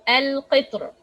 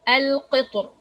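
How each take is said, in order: The two takes are said the same way.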